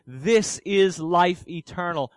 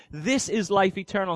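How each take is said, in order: First: Slow, "is" held and weighted; stress on is. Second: "this" lifted at the start, the rest even; stress on this. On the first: Preacher quoting John to his flock, slow stress on is. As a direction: slowly weigh the word "is". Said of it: "he goes on to say". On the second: Preacher requoting the verse, stress on this. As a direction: open on "this" and let the rest run on. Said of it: "he says". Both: Shown as a demonstration.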